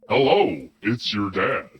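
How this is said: It is read in a put-on dad voice.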